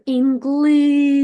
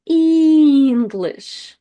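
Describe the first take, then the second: First: EnGLISH, the I sung out long, loud and high; stress on I. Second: ENglish, the first E sung out long and louder; stress on first E. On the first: Teacher showing English with stress moved onto I. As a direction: hold the I of English like a sung note. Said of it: "like, sing I". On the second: Teacher demonstrating English with the first E held. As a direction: stretch the first E of English like a note. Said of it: "the first E is stressed". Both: Shown as a demonstration.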